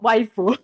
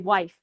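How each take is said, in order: First: The word ends with an added u vowel. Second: The word ends cleanly on the f sound. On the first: The speaker calls it wrong. "too much emphasis on you know the the sound" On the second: The speaker calls it right. "it should be wife"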